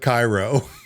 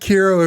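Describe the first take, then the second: First: The first syllable sounds like 'kye'. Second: The first syllable sounds like 'kee'. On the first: This is how the speaker's home region says the name. "We will call it Cairo" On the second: This is how others say the name. "call it Kiro if you must"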